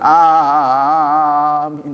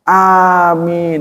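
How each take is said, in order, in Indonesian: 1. Vokalnya dipanjangkan sangat panjang. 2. Vokalnya diucapkan dengan panjang sedang. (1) "jangan begitu kepanjangan" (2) "harusnya begitu"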